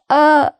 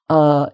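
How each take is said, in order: First: The vowel is pitched high in the throat. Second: The vowel is pitched low and chesty. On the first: The speaker calls it wrong. "not a sort of more high-pitched" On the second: The speaker calls it right. "it's best to pitch it lower like that"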